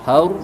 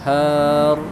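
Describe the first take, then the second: First: The vowel is short and the word stops sharply. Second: The vowel is drawn out and lengthened. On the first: The speaker calls it right. "Itu juga har" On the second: The speaker calls it wrong. "jangan har ... itu mau dipanjangin tapi itu jangan dipanjangkan"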